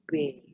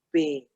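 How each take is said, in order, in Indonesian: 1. Bunyi B lembut dan santai. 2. Bunyi B didorong keluar dengan kuat. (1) "Coba rapatkan kedua bibir, hembuskan dari perut, keluar napasnya B" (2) "Jangan ditekan ya, jangan dikat B"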